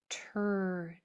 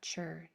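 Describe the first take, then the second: First: It begins with a crisp t sound. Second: It begins with a ch sound. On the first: The speaker calls it right. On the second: The speaker calls it wrong. "not chur"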